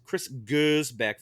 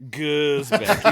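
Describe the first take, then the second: First: Gersbeck said slowly and carefully, Gers as GURZ; careful pronunciation. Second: Gersbeck said loud, leaning on GERS like a snooty French waiter. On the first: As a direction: say Gersbeck slowly, each syllable clear. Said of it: "first person to ever pronounce it correctly". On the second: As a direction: lean into Gersbeck with French flair. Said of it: "say it like a snooty French waiter". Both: Shown as a demonstration.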